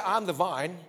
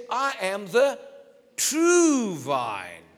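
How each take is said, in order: First: Said in the usual way. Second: TRUE hit loud and drawn out, then falling; stress on TRUE. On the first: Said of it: "he didn't say". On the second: Shown as a demonstration. Preacher correcting the misquote, stress on true. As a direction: lean hard on the word true. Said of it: "He said".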